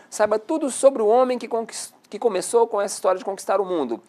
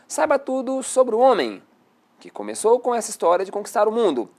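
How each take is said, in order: First: There is no pause after 'homem'. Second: There is a pause after 'homem'. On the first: The clause restricts which man is meant. "Ao passo que na de cima" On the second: The clause adds extra explanation about the man. "Ela com vírgula, ela está com a seguinte entonação"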